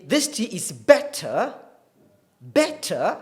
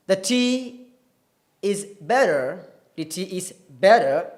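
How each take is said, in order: First: British "better" with a crisp T and no final R; British RP accent. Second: American demo of "better" with R at the end; American accent. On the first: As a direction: stress the T consonant in "better", British style. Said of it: "the British R P accent". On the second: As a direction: say "better" the General American way, T turned to a tap. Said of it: "that is typical American". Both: Shown as a demonstration.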